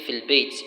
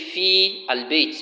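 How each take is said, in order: First: Fi is shortened and merged into the article. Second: Fi and al are said as separate syllables. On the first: The speaker calls it right. "you say fil bayt. You have to truncate the fi" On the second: The speaker calls it wrong. "instead of you say fi al bayt"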